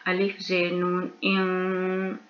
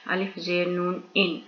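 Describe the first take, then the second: First: Slow "इन" with the nun hidden, nasal and unstopped; ikhfa, hidden nun. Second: "इन" with the full, clear nun sound; wrong way, plain nun. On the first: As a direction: hide the n in "इन", tongue touching nothing. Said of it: "नून की आवाज़ को छुपा देंगे". ("इन" में नून की आवाज़ छुपाकर, धीरे) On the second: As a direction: say "इन" plainly, letting the n ring out. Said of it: "तो हम क्या पढ़ेंगे?". ("इन" साफ़ नून के साथ, बिना इख्फा) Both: Shown as a demonstration.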